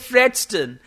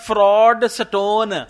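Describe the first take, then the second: First: The last syllable is reduced to 'stun'. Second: The last syllable is a full 'stone'. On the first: "अब स्टोन को बोला स्टन" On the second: "कोई और होता उसने बोला था फ्रॉड स्टोन"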